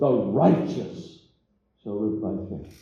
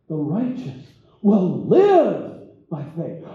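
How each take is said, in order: First: The stress falls on the word righteous. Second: The stress falls on the word live. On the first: It is the righteous who will live. The speaker calls it wrong. "Sometimes we emphasize the first thing" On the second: They will truly live. The speaker calls it right. "we need to emphasize that middle part"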